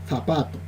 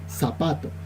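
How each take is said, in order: First: The word starts with a z sound. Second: The word starts with an s sound. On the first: This is how speakers in Lima say it. The speaker calls it right. "en Lima la pronuncian con la Z" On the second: This is how speakers in the teacher's own region say it. The speaker calls it wrong. "nosotros la pronunciamos con la S"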